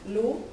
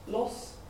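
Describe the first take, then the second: First: The syllable is pronounced the French way. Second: The syllable is pronounced the Spanish way. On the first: "the French" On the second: "for Spanish"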